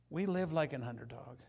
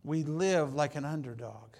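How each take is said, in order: First: Said in the usual way. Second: Loud, emphatic "we live like an underdog"; emphatic declaration. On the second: Shown as a demonstration. Preacher proclaiming to the church, loud and emphatic.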